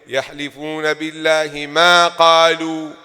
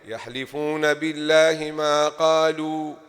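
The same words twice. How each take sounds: First: The word ma is pushed with strong emphasis. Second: The word ma is said plainly, without extra push. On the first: They swear that they did not say it. "and then you push a" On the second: They swear about whatever they said. "if you say the ma whatever, so look, you will be saying like this"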